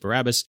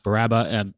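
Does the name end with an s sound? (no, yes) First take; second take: yes; no. First: The name ends with an s sound. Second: The name ends in a vowel, without s. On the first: This is the speaker's usual way of saying it. "I've always pronounced it Barabbas" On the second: This is how the film says it. "in the movie it's pronounced Barabba"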